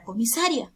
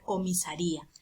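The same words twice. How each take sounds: First: "comisaria" stressed on SA, with ria as one syllable; the mistaken "comisaria", no accent on the i; wrong stress, diphthong. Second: "comisaría" with RÍ stressed and a split off. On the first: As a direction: say "comisaria" ending in a quick -rya. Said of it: "no estamos hablando de la palabra". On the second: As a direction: break the diphthong in "comisaría": ri-a, two syllables. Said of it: "tenemos que romper el diptongo". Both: Shown as a demonstration.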